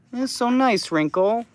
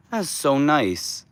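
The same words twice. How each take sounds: First: Much higher sing-song cooing. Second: Said in the usual way. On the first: Real, not acted. Owner coos high at Wrinkle the duck. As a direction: squeak it up for the duck.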